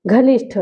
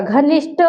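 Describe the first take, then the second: First: घनिष्ठ ending in aspirated ठ, as ghanishṭh; घनिष्ठ closed on ठ; ठ form. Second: घनिष्ठ ending in plain ट, as ghanishṭ; no puff at the end of घनिष्ठ; घनिष्ठ with unaspirated final sound; ट form. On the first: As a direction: puff the end of घनिष्ठ. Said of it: "कहाँ पे टा लगना है". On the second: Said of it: "अब यहाँ पे उसी प्रकार". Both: Shown as a demonstration.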